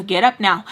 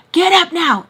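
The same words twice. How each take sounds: First: Said in the usual way. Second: Louder, higher mock command; punchy, raised-voice order; retold barked order. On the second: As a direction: imitate an urgent order to get up. Repeats retold order much more forcefully.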